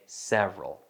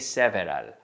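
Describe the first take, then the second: First: The word is said with two syllables. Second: The word is said with three syllables. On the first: The speaker calls it right. "I say several. Papa, two syllables" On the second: The speaker calls it wrong. "I don't say several"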